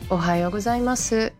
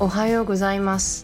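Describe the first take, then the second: First: It is said with Kansai dialect intonation. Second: It is said with standard Tokyo Japanese intonation.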